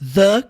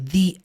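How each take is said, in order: First: The word sounds like 'thuh'. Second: The word sounds like 'thee'. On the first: The next word starts with a consonant sound. "A mesma palavra, pronúncias diferentes" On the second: The next word starts with a vowel sound. "a próxima palavra começa com som de vogal, o que você vai fazer é pronunciar the"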